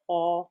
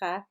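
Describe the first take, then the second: First: The letter sounds heavy, tongue back raised. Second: The letter sounds light, tongue back lowered. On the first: The speaker calls it right. "we say ha. It's like raising the back of the tongue" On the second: The speaker calls it wrong. "we don't say ha"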